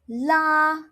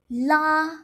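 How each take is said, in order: The two takes are said the same way.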